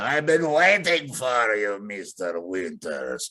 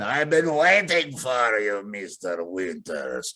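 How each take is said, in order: First: It is spoken in an Eastern European accent. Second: It is spoken in an Eastern European accent.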